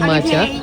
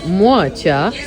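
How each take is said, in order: First: The first vowel is a plain 'a' sound. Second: The first vowel is a gliding 'wa' sound. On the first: The speaker calls it right. "se pronunță macea" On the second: The speaker calls it wrong. "am descoperit acum cum se pronunță moacea"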